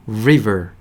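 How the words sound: It is said with English r and v sounds. The speaker calls it right. "영어는요, river 하셔야 돼요"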